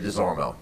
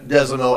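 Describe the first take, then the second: First: The R sound in the name is pronounced. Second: The R sound in the name is silent. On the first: This is how people outside New Iberia say it. "outside of New Iberia" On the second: This is how locals in New Iberia say it. "in New Iberia"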